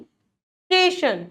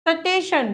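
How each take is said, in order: First: "स्टेशन" with a long s running into t; joined consonants. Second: "सटेशन" as sa-te-shan; wrong added vowel. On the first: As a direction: start "स्टेशन" straight on st, no vowel between. ("स्टेशन", आधा स ट से जुड़ा) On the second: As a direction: break st apart in "सटेशन". ("सटेशन", स और ट अलग) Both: Shown as a demonstration. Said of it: "सटेशन नहीं होता".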